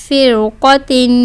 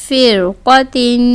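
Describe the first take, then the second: Both takes have the same delivery.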